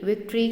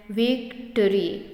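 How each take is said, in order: First: Said in the usual way. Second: victory broken slowly, "vic - tree"; split into syllables. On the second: Shown as a demonstration. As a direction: say victory in two drawn-out beats. (Victory को दो हिस्सों में तोड़कर, धीरे) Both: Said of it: "दो syllable हैं".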